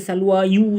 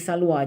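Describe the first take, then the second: First: The word ends with an added yu sound. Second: The word ends in a plain long a. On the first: The speaker calls it wrong. "Jangan baca salwa yu, tak boleh" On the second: The speaker calls it right. "tuan-tuan kena baca salwa"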